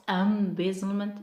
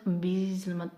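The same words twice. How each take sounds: First: "embezzlement" as EM-bezzlement; stress on first syllable. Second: Quicker "embezzlement" as em-BEE-zlement; wrong stress, second syllable. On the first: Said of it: "mark stress on the first syllable". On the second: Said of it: "it's not embezzlement". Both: Shown as a demonstration.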